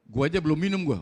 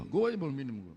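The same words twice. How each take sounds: First: Said in the usual way. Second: Softer, dropped repeat of gua aja belum minum gua; "Gua aja belum minum gua" said again much softer and lower; quiet repeat. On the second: Real, not acted. Preacher teasing the crowd about the cake, said softly.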